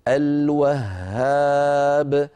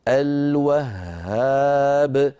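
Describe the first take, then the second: The two takes are said the same way.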